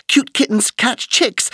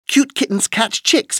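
The two takes are said the same way.

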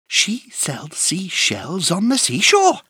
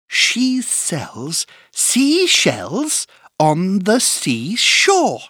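First: It is said at a fast pace. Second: It is said at a slow pace.

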